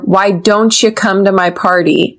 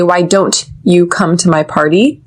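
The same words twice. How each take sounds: First: The t and y blend into a ch sound. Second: The t and y are said separately. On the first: The speaker calls it right. "we connect the T with the Y and it turns to don't ya" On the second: The speaker calls it wrong. "We don't say"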